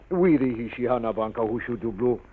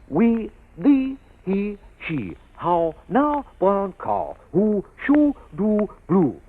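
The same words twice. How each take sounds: First: The words are not projected or rounded. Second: The words are projected with rounded lips. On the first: The speaker calls it wrong. "And what comes out?" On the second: The speaker calls it right. "How to speak. Like this"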